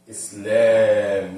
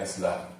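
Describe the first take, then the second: First: The second vowel is drawn out long. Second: The second vowel is cut short. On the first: The speaker calls it right. "really it's a midda. Islam" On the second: The speaker calls it wrong. "not Islam"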